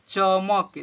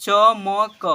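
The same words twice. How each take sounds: First: "चमक" joined as च-मक; blended into one word. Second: "चमक" as "च, म, क", loud; spelled letter by letter. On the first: Teacher urging pupils to try reading, blended. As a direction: finish "चमक" on क, no final vowel. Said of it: "पढ़ने को प्रयास कीजिए". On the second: Teacher urging pupils to spell aloud, letter by letter. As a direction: give each letter of "चमक" its own vowel. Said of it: "देखिए हिजे कीजिए ना". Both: Shown as a demonstration.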